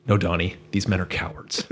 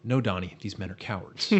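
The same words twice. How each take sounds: First: Reassuring Walter. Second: Reassuring. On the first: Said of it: "Walter just goes". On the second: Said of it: "reassures him". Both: Retold or imitated.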